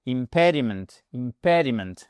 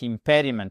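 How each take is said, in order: First: "impediment" stressed on the second syllable, pe. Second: "Impediment" with the accent on pe, falling after; stress on pe. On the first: Teacher marking word stress for learners, stress on pe. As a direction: lean on the pe in "impediment". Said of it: "Accentuation ici". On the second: Teacher repeating the stressed word for the class. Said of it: "votre accent tonique". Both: Shown as a demonstration.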